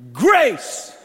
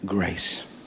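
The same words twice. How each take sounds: First: The word is shouted loudly. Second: The word is whispered quietly.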